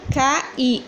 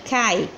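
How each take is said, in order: First: "Cai" broken in two as "ca-i"; split into syllables. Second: Said in the usual way. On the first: Shown as a demonstration. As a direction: say "Cai" as two separate beats, CA, I. ("Cai" separado em duas sílabas, "ca-i") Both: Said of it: "eu não separo".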